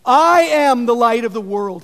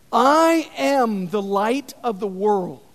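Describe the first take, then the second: First: Preacher declaring Jesus' words boldly; loud proclamation. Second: Slow, measured first declaration; preacher reading Jesus' words slowly; slow proclamation. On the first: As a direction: ring it out loud to the crowd. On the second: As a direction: lay it down slowly, weighing each word. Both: Acted. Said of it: "he proclaims".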